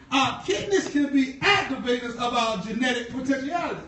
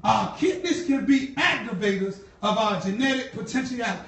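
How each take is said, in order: Both takes have the same delivery.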